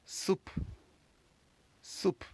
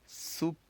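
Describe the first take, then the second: First: Soup said as sup, final e silent, close on the p; French soupe. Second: Soup read as su, raised pitch, final p barely there; syllable-by-syllable read. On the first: Teacher giving students the right way to say soup. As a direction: model soup the finished way, firm p at the end. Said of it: "we're going to pronounce this word as soup". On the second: Teacher reading the word soup syllable by syllable for students. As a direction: sound it out the first time, pitch lifted. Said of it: "which gives us the word". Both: Shown as a demonstration.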